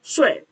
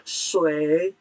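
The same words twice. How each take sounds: First: "sui" with a short, sharp falling tone; nada keempat. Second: "sui" drawn out in a dipping third tone; nada ketiga. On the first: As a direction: start "sui" high and drop it fast. ("sui" nada empat, pendek dan jatuh tajam) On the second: ("sui" nada tiga, panjang, turun lalu naik) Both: Shown as a demonstration. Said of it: "Kalau nada tiga".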